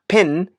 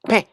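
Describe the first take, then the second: First: The word ends with a clearly sounded n consonant. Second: The word ends abruptly on a nasal vowel. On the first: The speaker calls it wrong. "P E N is not pen" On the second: The speaker calls it right. "it's pen"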